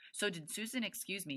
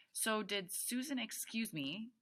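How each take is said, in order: First: Quick, higher-pitched rush of words; talking a mile a minute. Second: Slow, higher-pitched, careful read; slower reading. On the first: A narrator's reading. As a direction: rattle it out, words running together. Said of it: "so fast the words kind of smooshed together". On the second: Shown as a demonstration. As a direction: stretch it out so listeners can follow. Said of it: "I'm gonna try to read it slower".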